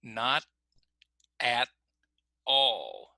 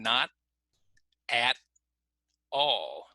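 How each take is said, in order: First: The T is stopped, with words kept apart. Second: The T is stopped, with words kept apart.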